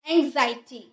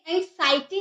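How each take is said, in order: First: The x is said as a z sound. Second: The x is said as a ks sound. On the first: The speaker calls it right. "ये एक्स है ना, इसको जॉ में pronounce करेंगे" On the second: The speaker calls it wrong. "इसका एक्स इसको नहीं पढ़ेंगे, एंजाइटी नहीं पढ़ेंगे"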